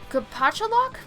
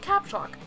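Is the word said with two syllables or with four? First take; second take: four; two. First: The word is tried with four syllables. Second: The word is shortened to two syllables. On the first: "I've never been able to pronounce this word ever before" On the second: "I've always said caps lock"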